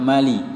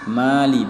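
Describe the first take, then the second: First: The first vowel is cut short. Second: The first vowel is drawn out long. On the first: The speaker calls it wrong. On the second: The speaker calls it right. "ada tanda panjang"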